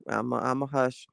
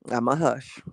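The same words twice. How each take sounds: First: Quiet self hush. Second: Said in the usual way. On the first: Real, not acted.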